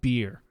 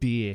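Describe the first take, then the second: First: The word is said with an American accent. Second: The word is said with a Japanese accent. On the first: The speaker calls it wrong. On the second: The speaker calls it right.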